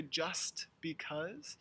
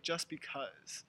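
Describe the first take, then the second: First: Slow "just because" with the t of "just" released; careful "just", t sounded before "because"; full T. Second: "just because" run together as "jus because"; no t at the end of "just"; dropped T. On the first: Teacher showing how it should be said, slow full T. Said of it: "We should say". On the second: Teacher giving a conversational example, dropped T. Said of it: "the T really disappears". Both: Shown as a demonstration.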